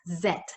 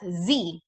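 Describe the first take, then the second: First: The letter is said the British way. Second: The letter is said the American way. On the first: "British English pronounces this as Z" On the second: "American English would pronounce this as Z"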